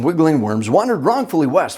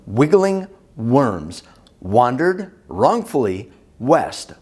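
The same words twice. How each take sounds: First: It is said very fast. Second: It is said slowly.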